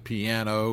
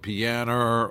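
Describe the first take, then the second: First: The word ends with an 'oh' sound. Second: The word ends with an 'er' sound. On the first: The speaker calls it right. "instead of piano" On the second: The speaker calls it wrong. "or pianer"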